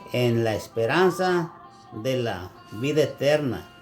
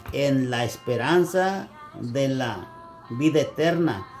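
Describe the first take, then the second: Both takes have the same delivery.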